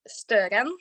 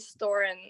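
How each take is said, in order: First: The name is said with a Norwegian pronunciation. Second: The name is said with an English pronunciation. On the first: "in Norwegian, it's like" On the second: "I mostly just say Storen in English"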